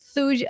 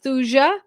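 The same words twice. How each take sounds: First: The J sound is left out of the word. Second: The J sound is pronounced in the word. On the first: "with a silent J" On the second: "Some people pronounce it Thuja"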